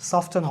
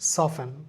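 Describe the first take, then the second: First: The t in the middle is pronounced. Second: The t in the middle is not pronounced. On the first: The speaker calls it wrong. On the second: The speaker calls it right.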